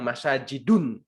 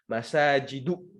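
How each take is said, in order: First: The word ends with an added n sound. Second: The word ends on a bare u vowel. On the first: The speaker calls it wrong. "Nggak boleh kita bilang masajidun. Nggak boleh pakai un" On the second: The speaker calls it right. "harus pakai u"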